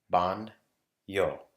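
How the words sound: The word is split into separate syllables. "break it down into syllables"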